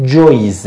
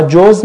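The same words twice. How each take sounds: First: "جویز" with an added Y, joyz; regional pronunciation. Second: "جوز" as one syllable, joz; Mashhad pronunciation. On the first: Teacher showing how others say walnut, joyz with Y. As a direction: say "جویز" with a Y glide before the Z. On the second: Teacher giving the Mashhad word for walnut, pronounced joz. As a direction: say "جوز" without any Y sound, joz. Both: Shown as a demonstration.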